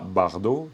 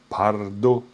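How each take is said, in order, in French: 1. Le mot commence par un son b sonore. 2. Le mot commence par un son p sourd. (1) "comme Brigitte Bardot, mais c'est pas Bardot" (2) "c'est Pardo"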